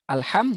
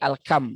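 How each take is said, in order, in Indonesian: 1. Konsonan tengahnya bunyi h. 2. Konsonan tengahnya bunyi k.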